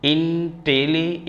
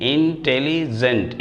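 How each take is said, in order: First: Slow and higher, pulling the syllables of Intelli apart; teacher drawing out Intelli- slowly to show its syllables. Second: Careful slow teacher's intelligent; slow full word. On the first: Teacher breaks the word apart for students, slowly. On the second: Teacher models the whole word for students, slowly. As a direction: say intelligent slowly, each syllable clear, falling at the end. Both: Shown as a demonstration. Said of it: "इसका pronunciation करेंगे".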